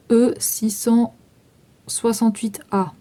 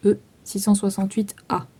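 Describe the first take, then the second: First: Slow, spelled-out dictation of the code; slow dictation of the product number. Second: Fast, matter-of-fact repeat of the code; quick repeat of the code; quick restatement. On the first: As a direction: read the code out slowly for them to note. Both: Shown as a demonstration. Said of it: "Enfin, vous écrivez".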